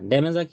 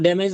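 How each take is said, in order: First: The word ends with an added vowel sound. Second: The word ends cleanly on the final consonant. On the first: The speaker calls it wrong. "ড্যামেজা কি?" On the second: The speaker calls it right. "শুধু ড্যামেজ বলেন।"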